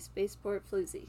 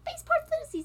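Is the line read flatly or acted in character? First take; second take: flatly; in character. First: It is read flatly, without character intonation. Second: It is acted with the character's intonation.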